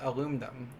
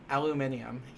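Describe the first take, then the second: First: The word is said without the British ending. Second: The word is said with the British ending.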